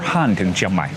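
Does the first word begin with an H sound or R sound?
H sound. The first word begins with an H sound.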